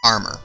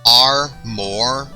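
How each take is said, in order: First: The second syllable is short and reduced. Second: The second syllable is a full 'more'. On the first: "You still pronounce it that way" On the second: "saying it as if there's two O's instead of an O and a U"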